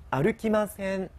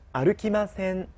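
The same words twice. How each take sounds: The two takes are said the same way.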